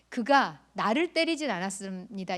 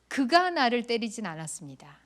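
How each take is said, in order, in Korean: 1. 두 번째 단어에 강세가 있어요. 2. 첫 번째 단어에 강세가 있어요. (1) "이 표현은 그가 나는 안 때리고 다른 사람을 때렸다는 뜻이에요" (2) "이 말은 다른 사람이 나를 때렸다는 뜻이에요"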